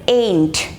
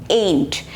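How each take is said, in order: The two takes are said the same way.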